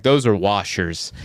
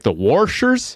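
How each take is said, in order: First: Said in the usual way. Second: "washers" as "worshers", rising higher as a question; questioning "washers" with an intrusive R; added R. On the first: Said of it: "there's no R in washer". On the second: Retold or imitated. Coworker repeating himself, R put into "washers". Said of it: "Daryl throws R's on things".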